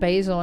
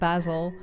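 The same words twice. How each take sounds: First: It is said with an American pronunciation. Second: It is said with a British pronunciation. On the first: The speaker calls it wrong. "when I said basil instead of basil" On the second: The speaker calls it right. "instead of basil"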